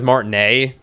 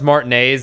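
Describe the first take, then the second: First: The final sound of the word is dropped. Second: The word is said with its full ending.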